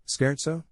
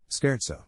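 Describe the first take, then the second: First: "Scherzo" as SKAIRT-so, asked with a rise; questioning pronunciation. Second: "Scherzo" as SKAIRT-so, settled with a fall; confirming pronunciation. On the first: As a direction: try "Scherzo" as a rising question. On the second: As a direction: confirm "Scherzo", falling and sure. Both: Shown as a demonstration. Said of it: "C H sounds exactly like a hard K".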